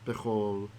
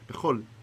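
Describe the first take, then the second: First: The final L is dark, like English final L. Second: The final L is clear, with a short attack. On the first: The speaker calls it wrong. "You don't say bechol" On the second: The speaker calls it right. "the first one is the correct one"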